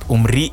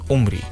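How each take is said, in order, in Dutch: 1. De naam wordt op de Israëlische manier uitgesproken. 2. De naam wordt op de Nederlandse manier uitgesproken. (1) "Vooral in Israël ... en dan spreek je het ook anders uit" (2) "in plaats van"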